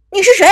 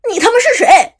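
First: Loud, high shout of alarm; startled shout. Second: Loud, high, over-the-top yell; exaggerated shout. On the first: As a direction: yell it at the stranger in shock. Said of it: "指着彼此大声问道". (惊慌大喊) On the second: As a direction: ham up the cursing version. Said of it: "喊出了这句话的夸张版本". (夸张地大骂) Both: A narrator's reading.

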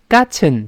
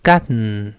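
First: "Gotten" at normal speed with nasal release; "Gotten" said quickly, nose release; nasal plosion. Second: Short "gotten", nasal release, lower; "gotten" with no t burst; nasal plosion again. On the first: Teacher saying "Gotten" at speed before slowing it. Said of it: "再注意这个鼻腔爆破". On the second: Teacher repeating "gotten" once more. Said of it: "再来一遍". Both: Shown as a demonstration.

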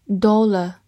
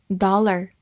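First: "Dollar" British-style, rounded o and silent r; British accent. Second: American "dollar", open ah and final r; American accent. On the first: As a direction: give the British DOL-uh for "Dollar". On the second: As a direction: say "dollar" the American way, DAH-ler. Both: Shown as a demonstration. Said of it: "美式发音".

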